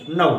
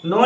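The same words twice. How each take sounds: First: नो said with the IPA diphthong, gliding from o toward u; IPA pronunciation. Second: नो said the usual Indian way, a plain pure o; wrong pronunciation. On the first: Teacher modelling the correct IPA नो with a gliding diphthong. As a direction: glide नो into a double sound, the right way. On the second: Teacher showing students the wrong नो, a plain pure o. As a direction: give नो the familiar plain o, as the wrong model. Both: Shown as a demonstration. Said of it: "नो नहीं".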